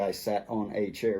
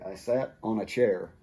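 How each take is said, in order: First: 'On' and 'a' are said separately and fully. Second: 'On' and 'a' run together with reduced 'a'. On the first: The speaker calls it wrong. "we don't say" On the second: The speaker calls it right. "We say"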